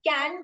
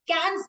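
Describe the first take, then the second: First: The word ends without an s sound. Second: The word ends with an s sound.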